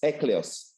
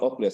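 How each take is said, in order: First: The name starts with an 'eck' sound. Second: The name starts with an 'ock' sound. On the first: The speaker calls it right. "it's Ecleus" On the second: The speaker calls it wrong. "it's not Oculus"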